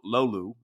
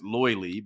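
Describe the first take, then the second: First: It is said the native, non-American way. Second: It is said the common American way. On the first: The speaker calls it right. "but I believe it's called uh, lo, lolu" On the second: The speaker calls it wrong. "a lot of Americans pronounce it loily"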